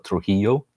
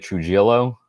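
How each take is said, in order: First: The j sounds like h, double l like y. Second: The j and double l sound English. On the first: The speaker calls it right. "the J is like a H, and that the double L is like a ya" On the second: The speaker calls it wrong. "will probably try to say Trujillo, um, because they look at it like phonetically"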